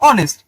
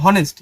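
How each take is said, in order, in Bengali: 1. শব্দটি স্বরধ্বনি দিয়ে শুরু হয়। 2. শব্দটি h ধ্বনি দিয়ে শুরু হয়। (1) "কিন্তু ওকে আমরা উচ্চারণ করি অনেস্ট" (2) "উচ্চারিত হওয়া উচিত ছিল হনেস্ট"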